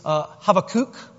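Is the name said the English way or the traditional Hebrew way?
Hebrew. The name is said with a Hebrew pronunciation. "The traditional Hebrew way of saying it is Habakkuk"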